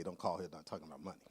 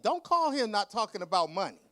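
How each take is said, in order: First: Lower, softer, fast mutter of "Don't call here not talking about money."; quiet rushed version. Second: Louder sassy telling-off. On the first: Author taking back what she told the publisher, muttered low and fast. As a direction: rattle it off under your breath. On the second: Author telling off her publisher, loud sassy version. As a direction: snap it at her, all sass. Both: Retold or imitated. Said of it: "and I didn't say".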